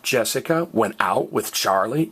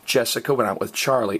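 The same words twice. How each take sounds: First: The voice rises at the end. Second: The voice falls at the end. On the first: It asks whether this happened. "is a question" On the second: It states that this happened. "is a statement"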